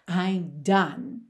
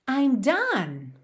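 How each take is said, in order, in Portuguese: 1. É dito com uma voz exausta e sem energia. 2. É dito com uma voz animada e alegre.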